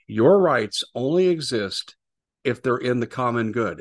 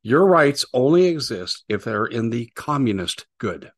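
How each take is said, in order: First: Said in the usual way. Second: "communist" hit slowly and firmly; "communist" drawn out and punched; stress on communist. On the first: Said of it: "let me put this another way". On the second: Shown as a demonstration. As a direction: lean hard on "communist", slow and loud.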